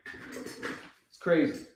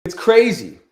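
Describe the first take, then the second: First: Slow, drawn-out stunned whisper. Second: Said in the usual way. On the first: Real, not acted. Trader whispering to himself after the missed move. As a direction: breathe it out in disbelief. Repeats line, then whispers it.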